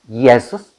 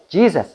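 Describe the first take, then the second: First: The name is said with a Latin pronunciation. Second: The name is said with an English pronunciation. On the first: "o acento latín" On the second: "o en inglés"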